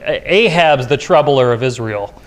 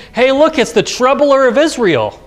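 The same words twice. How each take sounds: First: Said in the usual way. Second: Mock Ahab greeting his enemy with scorn; a king's scornful jab at a prophet, pitched high; sneering jibe. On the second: Preacher voices Ahab's jibe.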